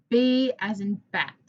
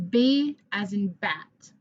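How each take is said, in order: First: Said in the usual way. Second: B as in bat, said slowly; slow and clear for the class; slow model. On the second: Shown as a demonstration. Teacher modelling before the class repeats. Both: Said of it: "Your turn".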